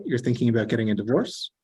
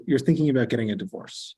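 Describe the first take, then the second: First: "divorce" rising at the end like a question; rising question tune. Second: "divorce" falling at the end as a statement; statement inflection on "divorce"; falling statement tune. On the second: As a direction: drop "divorce" down to close the statement. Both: Shown as a demonstration. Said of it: "how I'm inflecting that final word".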